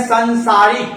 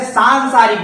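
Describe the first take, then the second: First: सांसारिक said with a short "san" opening; short first vowel. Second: सांसारिक with a long "saan" opening; common mispronunciation. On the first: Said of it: "सांसारिक नहीं होता ... संसारिक होता है". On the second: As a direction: say सांसारिक as "saan-saa-rik". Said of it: "उसको आप क्या बोल देते हैं". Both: Shown as a demonstration.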